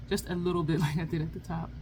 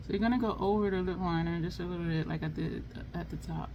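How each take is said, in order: First: Barely moving the lips, laughing; closed mouth talking. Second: Talking without moving lips; closed mouth talking. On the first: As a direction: talk through still lips. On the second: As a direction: lips held still while applying lipstick. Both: Real, not acted. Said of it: "Trying to talk without moving your lips is kinda challenging".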